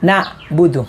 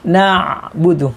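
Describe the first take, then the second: First: The middle sound is pressed and cut off. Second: The middle sound flows smoothly into the next. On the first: The speaker calls it wrong. "bukan ditekan" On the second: The speaker calls it right. "harus bersambung"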